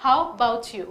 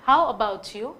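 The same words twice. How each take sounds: First: "How about you?" clipped to "how 'bout you"; shortened. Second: "How about you?" said stiffly with a full a-bout; the careful textbook take; wrong way. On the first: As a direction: cut the a short and run it on. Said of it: "नहीं, इसको थोड़ा short करके". ("about" छोटा करके, "हाउ बाउट यू") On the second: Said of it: "हम इसे ऐसे नहीं बोलते". ("about" पूरा बोला गया, ग़लत तरीका) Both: Shown as a demonstration.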